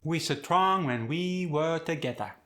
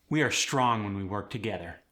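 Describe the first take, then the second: First: Higher Khmer accent with stretched vowels; Khmer-accented, "strong" as suh-trong. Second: Said in the usual way. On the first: Shown as a demonstration. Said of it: "we'll have [name] say it". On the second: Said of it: "I'll say the sentence".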